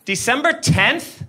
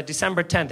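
First: "December tenth?" slow, rising into a question; doubting echo. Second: Said in the usual way. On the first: Retold or imitated. Cop repeats driver's answer back, "December tenth?" slow and questioning. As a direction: draw out "December tenth?" with the pitch lifting at the end. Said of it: "says the thing that you just said back to you".

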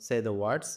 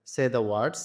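The two takes are said the same way.

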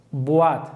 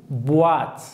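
Both takes have the same delivery.

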